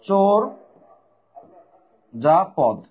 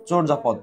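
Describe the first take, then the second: First: "চোর ... যা পদ" split with a long pause after চোর; broken-up pronunciation. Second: Said in the usual way. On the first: Shown as a demonstration. Teacher breaking down the pronunciation for students, "চোর ... যা পদ" in separate pieces. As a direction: say "চোর", stop, then finish "যা পদ". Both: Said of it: "উচ্চারণ ভেঙে দিচ্ছি".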